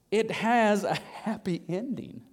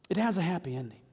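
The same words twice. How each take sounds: First: Drawn-out, savoured words; unhurried, spaced-out repetition; slow, deliberate emphasis. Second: Said in the usual way. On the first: Real, not acted. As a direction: let each word land slowly. Repeats it slowly for emphasis.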